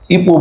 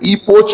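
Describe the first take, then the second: First: The word ends on a vowel, without 'ch'. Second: The word ends with a 'ch' sound. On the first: The speaker calls it right. "सी एच silent है आखिरी का, इपो बोलना" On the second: The speaker calls it wrong. "इपोच नहीं बोलना"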